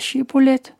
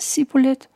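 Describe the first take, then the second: First: The word is said with the standard pronunciation. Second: The word is said with the dialect pronunciation. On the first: The speaker is not from Ephraim. The speaker calls it right. "Hvis han siger shibboleth, så får han lov til at gå gennem floden" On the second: The speaker is from Ephraim. The speaker calls it wrong. "hvis han derimod siger shibboleth, så er han fra Efraim"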